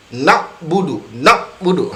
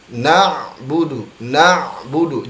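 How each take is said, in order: First: 'na budu' with a clipped k sound at the end of na; wrong take. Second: 'na budu' slow and smooth, na held long; correct ain sound. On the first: Teacher demonstrating the wrong ain sound to students, stopped short. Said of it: "Ha, tidak demikian". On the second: Teacher demonstrating the correct flexible ain, slow and smooth. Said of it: "Jadi lentur dalam pengucapan huruf ain". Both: Shown as a demonstration.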